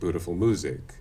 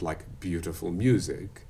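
First: No 'y' sound comes before the u. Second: A 'y' sound comes before each u. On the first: The speaker calls it wrong. "We don't have the problem of people saying" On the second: The speaker calls it right. "all North Americans do a liquid U or yod"

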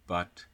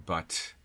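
First: The final t is held with no audible release. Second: The final t is released with an audible puff. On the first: "I'm not going to aspirate it or even release it" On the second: "instead of but"

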